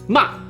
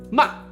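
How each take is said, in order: First: The pitch falls sharply, like a shout. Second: The pitch falls sharply, like a shout.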